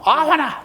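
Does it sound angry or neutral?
angry. It is said as if really angry.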